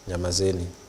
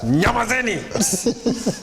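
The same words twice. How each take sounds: First: It is said at a soft, normal volume. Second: It is shouted very loudly, like a blast.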